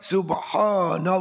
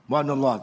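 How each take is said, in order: First: It is said slowly and deliberately. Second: It is said quickly and hurriedly.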